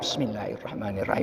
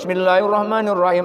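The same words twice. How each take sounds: First: The phrase is said softly, barely audible. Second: The phrase is said loudly, at full voice. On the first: The follower can still hear the leader's recitation. The speaker calls it right. "dalam hati kita, hanya kita yang dengar" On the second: The follower can no longer hear the leader's recitation. The speaker calls it wrong. "kalau kita keras seperti bacaannya imam"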